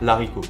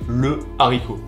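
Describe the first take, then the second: First: The article's vowel is dropped before the noun. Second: The article keeps its vowel before the noun. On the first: The speaker calls it wrong. "on ne peut pas dire" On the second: The speaker calls it right. "on va dire"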